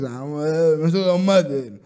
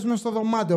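First: Halting, slurred dad voice; befuddled father. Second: Said in the usual way. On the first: Acted. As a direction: fumble it like a not-quite-there dad. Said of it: "Ο πατέρας λίγο, ξέρεις". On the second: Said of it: "λέει ο πατέρας".

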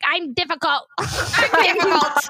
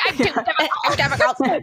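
First: Lightly voiced tearful Sally; a hint of crying Sally, slowed and drawn out; mimicking a weepy movie heroine; Sally Albright impression. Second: Light mock-tearful line reading; a touch of Sally's tearful whine; Sally Albright impression. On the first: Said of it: "she's crying and she's like". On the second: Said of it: "such a good line delivery".

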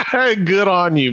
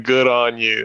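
First: Laughing. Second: Said in the usual way. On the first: Real, not acted.

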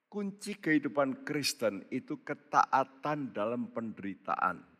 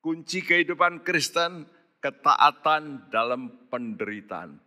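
First: Said in the usual way. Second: "kehidupan" and "ketaatan" pressed harder; the key line driven home; repeated with emphasis. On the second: Shown as a demonstration. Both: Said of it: "Saya ulangi".

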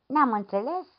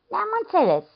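First: Asks "Ne-am înțeles?" with a rising question tune; checking the deal, voice going up at the end. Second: Says "Ne-am înțeles." higher, with a firm falling tune; affirming. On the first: Priest asks to seal the deal. (întrebare cu ton urcător: „Ne-am înțeles?”) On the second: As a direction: seals the deal with a confident drop. Lad answers to seal the deal. (afirmație hotărâtă, cu ton coborâtor: „Ne-am înțeles.”) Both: Acted.

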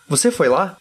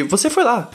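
First: "Você foi lá?" asked as a question, tune rising at the end; question intonation. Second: "Você foi lá" stated, pitched high then falling at the end; firm falling tune on "Você foi lá"; statement intonation. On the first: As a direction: lift the pitch on "lá" to ask. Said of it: "quando a gente faz uma pergunta". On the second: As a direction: peak on "foi", drop on "lá". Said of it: "É diferente de". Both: Shown as a demonstration.

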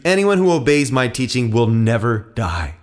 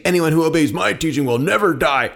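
First: Measured, weighty declaration; calm, authoritative scripture reading; solemn promise. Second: Higher-pitched, challenging quote; mildly mocking echo of a claim; incredulous quoting. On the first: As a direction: state it as a sure promise. Jesus solemnly promises the crowd. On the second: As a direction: throw the claim back in disbelief. Crowd throws his words back. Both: A narrator's reading.

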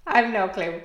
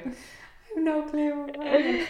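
First: Said in the usual way. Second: Very slow, higher, softer; a drawn, dreamy echo of the line; slow drawn-out repeat. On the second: Real, not acted. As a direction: stretch every word out.

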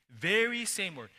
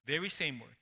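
First: Very hit a little higher and louder; stress on Very. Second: Said in the usual way. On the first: Shown as a demonstration. Preacher repeats his point, pressing on Very. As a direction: lean on the word Very.

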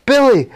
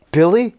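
First: High, loud shout of a name; excited cry. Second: Higher, questioning call; tentative question. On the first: Tony recognising the real Billy, crying out high and loud. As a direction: call out to your long-lost friend. Hero recognises his friend. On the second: Tony facing a cat that may be his friend, questioning. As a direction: ask the name as if unsure. Hero unsure cat is Billy. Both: Retold or imitated.

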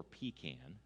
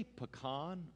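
First: Pecan said "PEE-can", stress on the first syllable. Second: Pecan said "puh-KAHN", stress on the second syllable. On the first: Preacher polling the congregation on pecan, said PEE-can. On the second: Preacher polling the congregation on pecan, said puh-KAHN. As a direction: say pecan with an open "kahn" ending. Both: Shown as a demonstration. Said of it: "do you say pecan or pecan".

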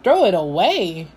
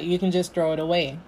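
First: Disbelieving, with pitch leaping up and down; incredulous echo. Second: Casual dismissal. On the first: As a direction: repeat it back in shocked disbelief. Shocked echo of friend's words. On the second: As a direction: toss it out casually, like it is nothing. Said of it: "She's like". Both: Retold or imitated.

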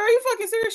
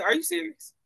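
First: Very high and louder "Are you fucking serious?"; shrieking at poison control in stunned relief; outraged disbelief. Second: High, startled "Are you serious?"; high-pitched stunned question to the poison control lady; shocked disbelief. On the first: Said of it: "I was like". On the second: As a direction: ask it in sudden shocked surprise. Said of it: "I said". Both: Retold or imitated.

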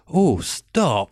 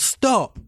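First: Drawn-out, softened mock objection; changed-mind protest. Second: Retold shout. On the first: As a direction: imitate her suddenly not minding at all. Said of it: "puts her glasses on". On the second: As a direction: imitate a woman shouting in alarm. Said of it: "she shouts".

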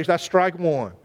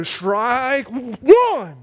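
First: Said in the usual way. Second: Drawn-out umpire call. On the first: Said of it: "they wouldn't just say". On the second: Shown as a demonstration. The pastor mimicking a crazy umpire: drawn-out strike call. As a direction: stretch it out like a showy umpire. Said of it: "they'd wait and they go".

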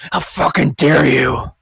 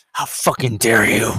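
First: Slow, louder mock indignation; drawn-out sarcastic outrage. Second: Lower, mock-indignant; sarcastic outrage. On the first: Vlogger mocking offended critics, slow sarcastic outrage. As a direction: stretch it out in fake horror. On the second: Vlogger mocking offended critics, sarcastic outrage. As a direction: fake horror, dripping sarcasm. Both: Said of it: "I'm being extremely sarcastic here".

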